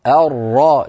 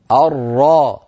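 First: الراء with a clear rolled ra, the tongue tip tapping the palate; correct ra. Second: الراء said with a weak, untrilled ra, as a lisper would; faulty ra. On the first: Teacher models the proper ra in الراء. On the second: Teacher imitates a student who cannot say الراء. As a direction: show the failed ra in الراء, the tongue not reaching the palate. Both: Shown as a demonstration. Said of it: "فيقول أر".

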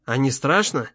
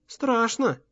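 First: Said in the usual way. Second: Put-on «Страшно» in a high, soft child's voice; small, high-pitched boy admitting fear; little boy. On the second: A narrator's reading. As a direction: answer quietly as a young child.

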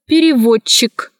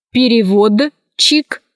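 First: Переводчик as перевоччик, one long soft Ч; merged soft CH. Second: Slow переводчик, Д and Ч sounded apart; spelling pronunciation. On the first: Teacher showing how переводчик is pronounced, merged double CH. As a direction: run ДЧ together in переводчик. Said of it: "произносится". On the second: Teacher showing how переводчик is written, spelled-out reading. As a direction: split переводчик as перевод-чик. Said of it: "пишется". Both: Shown as a demonstration.

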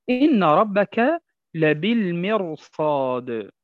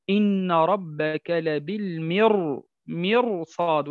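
First: لبالمرصاد very slow, ra thick before the sad; slow recitation. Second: مرصاد very slow with a thick ra; correct heavy ra. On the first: Teacher recites verse to show heavy ra. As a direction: draw out إن ربك لبالمرصاد. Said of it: "مثال قوله تعالى". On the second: Teacher shows correct reading, very slowly. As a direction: stretch لبالمرصاد, ra heavy. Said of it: "فنقول". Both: Shown as a demonstration.

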